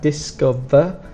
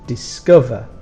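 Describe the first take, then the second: First: The stress is on the first syllable. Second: The stress is on the second syllable. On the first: The speaker calls it wrong. "So we have discover" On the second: The speaker calls it right. "the strong sound is on the second"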